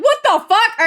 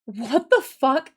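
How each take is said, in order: First: High, loud mock exclamation; quick high-pitched retold outcry; retold outburst. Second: Slow, stretched-out mock disbelief; imitated slow, puzzled reaction; imitated bafflement. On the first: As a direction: blurt it high and loud, retelling your own disbelief. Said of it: "And I was like". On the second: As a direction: draw it out as a stunned coworker would. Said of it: "And she was like".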